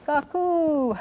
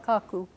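First: "Kaku" with a high, drawn-out accented ku; calling out, long U. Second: Said in the usual way. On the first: Shown as a demonstration. Lecturer imitating calling grandmother, long high final U. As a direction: call "Kaku" slowly, stretching the raised final U. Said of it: "make an extra long U on that one". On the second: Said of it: "But if you call her".

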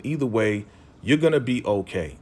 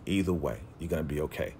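First: Said in the usual way. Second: Much softer and lower, gently reassuring; quiet reassurance. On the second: Retold or imitated. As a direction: ease her mind, barely above a murmur. Friend reassuring Issa, repeated.

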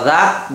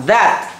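First: "that" said like "at", the th dropped; wrong that, no th. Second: "That" with a clear voiced th at the start; correct th sound. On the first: Father mimicking his son's wrong "that" as "at". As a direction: mimic the child's "that" as "at". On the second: Father modelling the correct "That" for his son. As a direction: model "That" with a proper th. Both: Shown as a demonstration. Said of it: "Không đọc là that".

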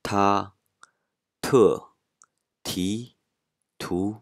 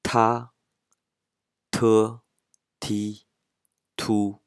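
First: "タ、トゥ、ティ、トゥ" going level, falling sharply on トゥ, then rising; vary the tone on each of タ、トゥ、ティ、トゥ, a sharp drop on the second; following marked tones. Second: "タ、トゥ、ティ、トゥ" each held high and level; first tone. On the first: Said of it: "イントネーションに従って発音すると". (「タ、トゥ、ティ、トゥ」を声調に従って上げ下げして) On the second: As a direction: give タ、トゥ、ティ、トゥ one even pitch, with puffed T. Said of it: "全部一声だと". (「タ、トゥ、ティ、トゥ」を一声で高く平らに) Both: Shown as a demonstration.

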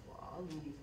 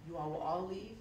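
First: Softer, falling "all" in "We'll all leave"; quiet promise. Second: Said in the usual way. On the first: Retold or imitated. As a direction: give the assurance quietly. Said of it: "We'll leave quietly".

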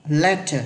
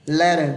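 First: "Letter" with a true t in the middle; British crisp t. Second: "Letter" with the t turned into a quick d; American flapped t. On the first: Teacher showing the British way, true t in "Letter". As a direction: release a clear t in "Letter", never a d. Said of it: "người Anh thì âm tờ này vẫn là âm tờ". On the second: Teacher showing the American-only way, flapped t in "Letter". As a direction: say "Letter" roughly as "le-der". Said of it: "Cái này chỉ có người Mỹ thôi nhá". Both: Shown as a demonstration.

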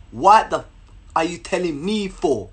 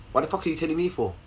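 First: Indignant rebuff. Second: Dismissive rebuff. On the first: Girl's rebuff repeated slowly. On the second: Girl's rebuff, said low and quick. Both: Retold or imitated.

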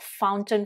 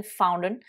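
First: FOUNTAIN with the t sounded, "FOWN-tun"; British "fountain", t kept after n; British pronunciation. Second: FOUNTAIN with the t dropped, "FOW-nun"; American "fountain", nothing between n and vowel; American pronunciation. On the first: Teacher recalling it for learners, British fountain with t. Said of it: "ce que je vous ai dit tout à l'heure". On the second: Teacher recalling it for learners, American fountain without t. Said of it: "pas prononcé avec l'accent américain". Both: Shown as a demonstration.

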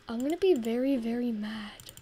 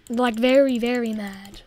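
First: Said in the usual way. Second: Very punched much louder; very shouted out loud; stress on very. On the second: Shown as a demonstration. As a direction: hit the first very hard, then mad.

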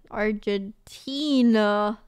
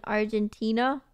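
First: Argentina said slowly, TEE stretched long; drawn-out Argentina. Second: Said in the usual way. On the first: Real, not acted. Repeating the country name to herself, drawn-out Argentina.

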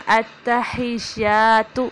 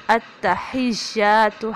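First: التحیات with the final ta dragged long; wrong recitation. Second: التحیات drawn out, ya stretched one alif, ta short; correct recitation. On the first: Teacher showing the wrong way to say التحیات. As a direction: stretch the end of التحیات as a mistake. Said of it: "تو نہیں پڑھیں گے". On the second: Teacher modelling التحیات for learners. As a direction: say التحیات slowly with a firm ha and long ya. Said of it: "ہا زیر یا ہی سختی سے پڑھیں گے". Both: Shown as a demonstration.

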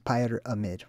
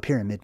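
First: Pyramid said as "pyre-amid", first part like "pyre"; split pronunciation. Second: Said in the usual way. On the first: Shown as a demonstration. Presenter shows what pyramid means, saying it as "pyre-amid". Shows word's parts after naming it.

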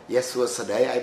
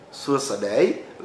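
First: "Suasadai" tossed back at normal speed with a playful rise; mock her "Suasadai" right back, lightly; teasing echo. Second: "Suasadai" said slowly, each syllable drawn out, rising at the end; a foreigner's careful, slow "Suasadai" with a lift at the end; Khmer greeting. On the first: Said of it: "I make fun with her back". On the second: Retold or imitated. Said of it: "like the word hello".

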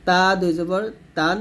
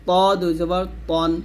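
First: তা light with an open a, ending তান; thin tā. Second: ত heavy with a rounded o, ending তন. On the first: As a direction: contrast a plain thin t in তা and তান. (তা পাতলা করে, তান) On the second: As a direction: thicken the t of ত and তন. (ত মোটা করে, তন) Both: Shown as a demonstration. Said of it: "তা এবং ত দুইটা কিন্তু এক হবে না".

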